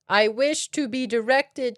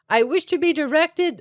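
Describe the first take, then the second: First: The phrase is spoken slowly and deliberately. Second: The phrase is spoken at a normal pace.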